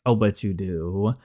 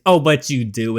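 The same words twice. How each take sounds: First: Slower, lightly voiced smug line; a touch of sly teasing. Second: Said in the usual way. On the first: Girl teasing her dad about who hides in her bed, sly and slow. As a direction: savour "Oh, but you do." as a sly tease.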